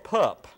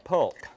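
First: The word is said without an L sound. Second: The word is said with an L sound. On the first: This is how people say it locally. "they pronounce it pup here in the city" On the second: This is how the word is spelled.

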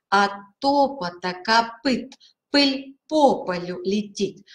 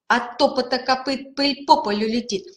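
First: The phrase is said at a slow pace. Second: The phrase is said at a quicker pace. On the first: "Сначала медленно произносим" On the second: "потом быстрее"

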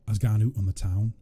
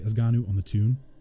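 First: The last word is said as 'town'. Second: The last word is said as Geordie 'toon'.

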